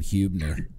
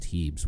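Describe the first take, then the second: First: The first syllable sounds like 'hue'. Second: The first syllable sounds like 'hee'. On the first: The speaker calls it wrong. "I called him Huebner because it's spelled H-U" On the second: The speaker calls it right. "it's actually pronounced Heebs with two E's"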